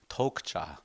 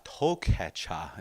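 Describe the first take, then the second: First: The word is said in a shortened form. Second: The word is said in its longer, full form. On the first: This is the newer, quicker way of saying it. "Tokcha was the word" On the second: This is the old way of saying it. "is the old way of saying it"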